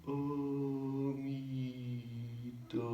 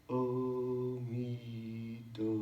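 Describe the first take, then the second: Both takes have the same delivery.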